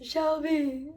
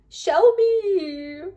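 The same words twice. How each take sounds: First: Mock crying. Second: High, louder whiny call of the name; crying emoji face. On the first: Acting out a fan's crying text, mock sobbing. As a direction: fake sob on the name, like a crying emoji. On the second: Pretend. Reading a fan's text aloud, whining the name. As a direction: play the sobbing emoji as a voice. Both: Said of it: "I'm doing the emoji face".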